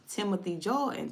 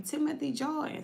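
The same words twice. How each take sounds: First: Said in the usual way. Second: Name a third time, rising. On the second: Shown as a demonstration. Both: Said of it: "see the name across the T V".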